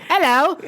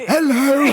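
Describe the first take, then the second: First: Put-on hello. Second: Loud laughing hello. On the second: Pretend. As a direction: shout it through laughter. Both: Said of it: "change your voice like this".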